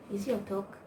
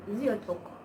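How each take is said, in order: Both takes have the same delivery.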